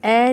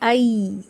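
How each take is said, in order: First: The vowel is a single plain 'e' sound. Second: The vowel glides from 'a' to 'i'. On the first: The speaker calls it wrong. "इसकी आवाज़ ए नहीं होती" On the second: The speaker calls it right. "इसकी आवाज़ होती है आई"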